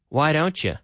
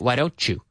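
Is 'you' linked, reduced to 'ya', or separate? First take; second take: reduced 'ya'; linked. First: The words are linked, with 'you' reduced to 'ya'. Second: The words are linked together smoothly. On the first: "Or the you often becomes ya" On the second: "We link it together. We normally say"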